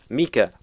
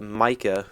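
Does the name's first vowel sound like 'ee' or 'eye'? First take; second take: ee; eye. First: The first vowel sounds like 'ee'. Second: The first vowel sounds like 'eye'. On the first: The speaker calls it right. "you spell say it with an E E K A" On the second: The speaker calls it wrong. "sorry, I said it wrong"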